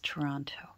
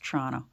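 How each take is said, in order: First: Every syllable and t sound is said clearly. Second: The syllables are run together, clipped and shortened. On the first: This is how outsiders say it. "But for the rest of the world, it's Toronto" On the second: This is how people from the city say it. "I know how to pronounce Toronto"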